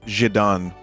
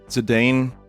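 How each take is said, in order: First: The name is said with a Japanese pronunciation. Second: The name is said with an English pronunciation. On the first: The speaker calls it right. "his Japanese pronunciation is Zidane" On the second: The speaker calls it wrong. "I've been saying it wrong my whole life"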